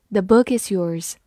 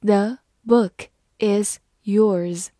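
First: Said in the usual way. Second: Very slow, word by word; slow reading. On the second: Shown as a demonstration. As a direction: leave a clear pause after each word. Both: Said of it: "慢慢来读".

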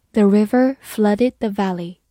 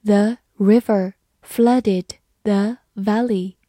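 First: Said in the usual way. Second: Slow, word-by-word model reading. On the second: Shown as a demonstration. Teacher demonstrates the example sentence for students, slow reading. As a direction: pause after each word so learners can follow. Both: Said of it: "慢慢来读".

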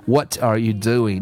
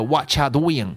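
First: "What are you doing" slow, every word full; safe full reading. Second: "What you" spelled out as stiff wha-cha doo-ying; badly done whatcha, syllable by syllable; wrong feel. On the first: Teacher advises learners, slow full reading. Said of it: "建议各位读成". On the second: Teacher warns learners with a bad example, stiff whatcha. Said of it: "不然的话读的". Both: Shown as a demonstration.

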